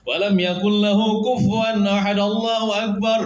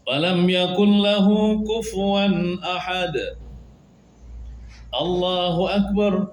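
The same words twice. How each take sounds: First: The final phrase follows with no pause. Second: A pause comes before the final phrase. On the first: The speaker calls it wrong. "terus sambung kita makruh" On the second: The speaker calls it right. "sebelum rukuk berjeda juga"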